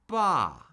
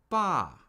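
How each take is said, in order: First: The pitch drops sharply from high to low. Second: The same.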